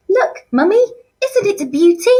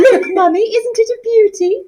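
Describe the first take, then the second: First: Put-on high, far-off childish posh voice; Sheila impression. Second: Put-on high, far-off girlish voice; posh Sheila. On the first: Teacher voicing Sheila for year eleven, high and girlish. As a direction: squeal it like a spoilt girl showing off her ring. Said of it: "my impersonation of how I think she speaks". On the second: Shown as a demonstration. Colleague asked to voice Sheila, high girlish squeal. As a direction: show off the ring like a spoilt daughter. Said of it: "Miss, you just say it".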